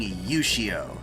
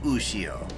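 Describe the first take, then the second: First: The name begins with a 'y' sound. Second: The name begins with an 'oo' sound. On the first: The speaker calls it wrong. "They had their people saying Yushio" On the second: The speaker calls it right. "instead of Ushio"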